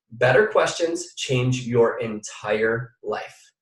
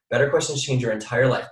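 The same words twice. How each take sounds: First: Very slow, every word weighted; slow emphatic. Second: Said in the usual way. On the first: Shown as a demonstration. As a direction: lean on each word, slowly. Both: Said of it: "Write this down".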